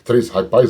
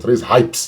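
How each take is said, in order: First: Hype is said with an added final vowel. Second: Hype is said as one English syllable. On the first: The speaker calls it wrong. "Três HiPis não" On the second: The speaker calls it right. "corrigir aqui a pronúncia"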